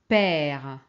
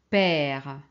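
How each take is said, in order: Both takes have the same delivery.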